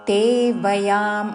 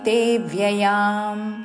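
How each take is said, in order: First: The second word has no 'y' after 'v'. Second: The second word has a 'y' after 'v'. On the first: The speaker calls it wrong. "అనకూడదు" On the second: The speaker calls it right. "బాకి యావత్తుతో"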